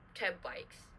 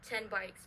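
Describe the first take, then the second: First: The n of ten fully becomes the next sound. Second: The n of ten is said as n. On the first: "and not ten, ten bikes. That is pretty silly" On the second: "ten bikes becomes"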